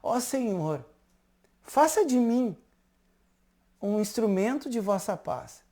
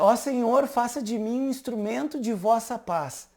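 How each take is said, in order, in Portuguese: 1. É dita bem devagar. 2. É dita em ritmo normal.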